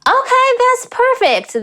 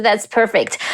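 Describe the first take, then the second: First: Delighted approval. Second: Said in the usual way. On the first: Real, not acted. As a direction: let the approval soar in pitch. Delighted verdict on a clip.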